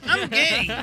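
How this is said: It is said in an Italian accent.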